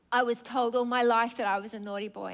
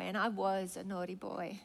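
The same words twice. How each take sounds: First: Said in the usual way. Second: Put-on softer, lower echo of "naughty boy". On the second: Preacher echoing the man's shame, softly. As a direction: let "and I was a naughty boy" drop away sadly. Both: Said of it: "come up to me this morning on the altar and say".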